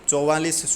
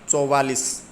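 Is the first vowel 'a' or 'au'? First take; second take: au; au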